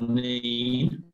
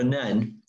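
First: The vowel is long, as in 'seen'. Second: The vowel is short, as in 'ten'. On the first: The speaker calls it wrong. "I was pronouncing it Neen when I was on the boat" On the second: The speaker calls it right. "I was corrected by locals to call it the Nen, which is correct"

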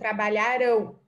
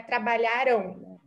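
First: The word ends with the mouth opening. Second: The word ends with the mouth closing. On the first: The action will happen in the future. "vocês percebem que a boca ela abre no final" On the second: The action happened in the past. "a gente vai fechar a pronúncia mais fechada"

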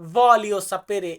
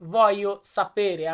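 First: The first word has a clear L sound. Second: The first word has no L sound. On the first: The speaker calls it wrong. "বা আমরা অনেকে বলি এটাকে ভলিও সাপেরে" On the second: The speaker calls it right. "এখানে উচ্চারণটা আসবে ভয়ো"

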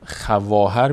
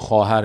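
First: A w sound follows the kh sound. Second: No w sound follows the kh sound. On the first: This is how the word is written. "خواهر می نویسیم" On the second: This is how the word is actually read. "اما خواهر می خونیم"

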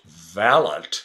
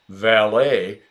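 First: It is pronounced the British way. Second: It is pronounced the American way.

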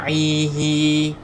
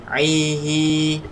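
Both takes have the same delivery.

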